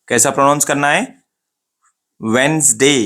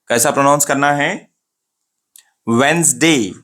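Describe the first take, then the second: The two takes are said the same way.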